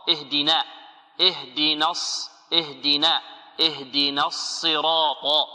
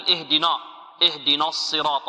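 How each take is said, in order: First: اهدنا with a thin, light ن before heavy الصراط; correct articulation. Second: اهدنا with the ن wrongly made heavy and dark; wrong pronunciation. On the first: Teacher corrects the error for students, light ن in اهدنا. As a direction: draw out اهدنا slowly, keeping نا light. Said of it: "ونركز على هذه النون". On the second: Teacher warns against this reading, heavy faulty ن in اهدنا. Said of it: "لا نقول اهدنا، اهدنا الصراط، خطأ". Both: Shown as a demonstration.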